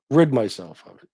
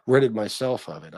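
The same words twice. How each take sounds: First: Correcting oneself, Rid said firmly; self-correction. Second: Said in the usual way. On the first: Real, not acted. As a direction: stress on Rid.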